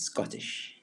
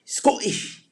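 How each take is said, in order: First: Said in the usual way. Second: High, punchy mock-Scottish burst; bad Scottish accent. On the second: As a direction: badly fake a Scottish accent on one word. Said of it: "the worst Scottish impersonation I could ever do".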